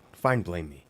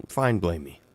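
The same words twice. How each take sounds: The two takes are said the same way.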